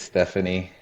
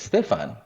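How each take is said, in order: First: The name is said with three syllables. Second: The name is said with two syllables. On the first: The speaker calls it wrong. "initially a lot of people think it's Stephanie" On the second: The speaker calls it right. "the proper way to say it is Stefan"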